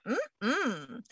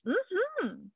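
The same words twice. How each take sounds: First: Gut no hum. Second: High falling "mm-hmm" of assent; a quick high hum of yes; gut yes hum. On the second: Host voicing a sacral gut yes, high hum. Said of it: "you might be like". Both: Retold or imitated.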